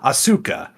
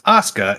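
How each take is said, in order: First: The u vowel is fully pronounced. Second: The u vowel is weak, nearly silent. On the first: The speaker calls it wrong. "and not" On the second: The speaker calls it right. "the vowel U is often weakly pronounced"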